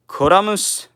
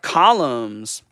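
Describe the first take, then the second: First: It is said with a Japanese pronunciation. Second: It is said with an English pronunciation.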